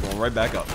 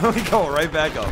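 First: Said in the usual way. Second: Louder, laughing repeat of going. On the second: Real, not acted.

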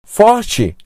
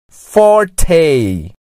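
First: Forte said as FOR-chee; Portuguese pronunciation. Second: Forte in a gringo accent, for-TAY. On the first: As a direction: say Forte the Brazilian way, ending in "chee". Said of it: "é pronunciado com sotaque gringo". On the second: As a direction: say forte like an English speaker, ending in "tay". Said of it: "pronunciado com sotaque gringo". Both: Shown as a demonstration.

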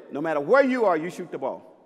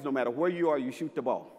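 First: Louder second take, weight on "where"; firm repeat. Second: Said in the usual way. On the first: Shown as a demonstration. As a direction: drive the rule home, leaning on "where".

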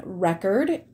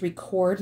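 First: RECORD stressed on the first syllable, REC-ord; noun stress. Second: RECORD stressed on the second syllable, re-CORD; verb stress. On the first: Teacher reading the marathon sentence, RECORD said as REC-ord. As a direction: say "record" as "REK-erd". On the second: Teacher reading the diary sentence, RECORD said as re-CORD. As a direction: say "record" as "ri-KORD". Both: Shown as a demonstration. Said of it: "This is another homograph".

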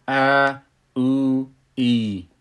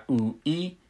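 First: ا، او، ای each stretched over two beats, louder; two-beat long vowels. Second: او، ای said quick and clipped, without stretching; short vowels. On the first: Teacher now stretches ا، او، ای to two beats, louder. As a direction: hold ا، او، ای for two counts each. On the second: Teacher shows the old short way of saying او, ای. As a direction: say او and ای short, one beat each. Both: Shown as a demonstration.

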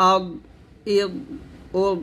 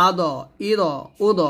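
First: আগ, ইদ, উদ thick and closed, with no bounce; correct heavy dad. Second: আদ, ইদ, উদ with an open bounced d, like "ado, ido, udo"; wrong dad. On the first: Teacher giving the right version, endings held shut. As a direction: press and stop the final dad of আগ, ইদ, উদ. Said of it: "এরকমভাবে". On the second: Teacher mimicking a common mistake, bouncing the final d. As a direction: add a released vowel after the d of আদ, ইদ, উদ. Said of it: "এটা ভুল উচ্চারণ". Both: Shown as a demonstration.

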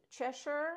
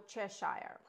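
First: Cheshire as CHESH-er, pitched higher and rising; first pronunciation. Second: Cheshire as CHESH-shire, slow and falling; second pronunciation. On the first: Realtor asking viewers for the correct pronunciation, Cheshire said as CHESH-er. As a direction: say Cheshire with a short "sher" ending, as a question. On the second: Realtor asking viewers for the correct pronunciation, Cheshire said as CHESH-shire. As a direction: say Cheshire with a full "shire" ending, rhyming with fire. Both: Shown as a demonstration. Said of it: "What is the correct pronunciation?".

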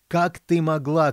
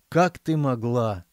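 First: Slow furious yell, high and loud; queen yelling while chasing her daughter; angry shout. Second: 1 slow sorrowful reproach. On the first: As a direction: scream it at your daughter. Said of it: "кричала королева". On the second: Queen sighing, resigned. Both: A narrator's reading.

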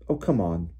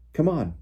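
First: Weary, disgusted dismissal. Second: Higher, urgent hurrying call. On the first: Hermione turning away from Malfoy, disgusted. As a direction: give up on him with mild disgust. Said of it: "said Hermione with a disgusted look". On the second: Fred pulling his sister toward the wood, urgent. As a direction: urge them to follow you now. Fred urging the others to flee. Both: A narrator's reading.

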